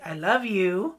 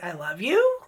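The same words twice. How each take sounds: First: It is said as a statement, falling. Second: It is said as a question, rising.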